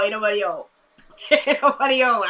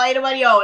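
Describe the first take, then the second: First: Mock old-folk voice, played for laughs; teasing that nobody is old, silly voice; silly put-on voice. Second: Playful. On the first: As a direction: say it in a goofy voice with a laugh. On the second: Real, not acted. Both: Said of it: "I'm just playing".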